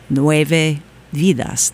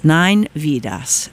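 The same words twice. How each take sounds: First: "Nueve Vidas" slow, the Spanish way; "Nueve Vidas" drawn out with Spanish vowels; Spanish pronunciation. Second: Said in the usual way. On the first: Shown as a demonstration. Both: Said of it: "my Spanish accent is terrible".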